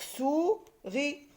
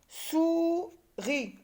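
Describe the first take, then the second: First: SOURIS as rising sou, pause, ri; syllables with a gap. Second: SOURIS high, as long sou, then ri; syllable by syllable. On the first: Teacher repeats the order, SOURIS slowly split in two. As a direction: lift SOU, then set RI apart in SOURIS. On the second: Teacher puts syllables in order, SOURIS split and higher. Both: Shown as a demonstration. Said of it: "par la syllabe sou".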